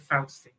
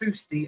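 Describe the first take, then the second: First: It is said with a Southern English vowel. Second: It is said with a Northern English vowel. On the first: "Southerners would say Fausty" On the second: "I would say Fousty only because I was raised by Northerners"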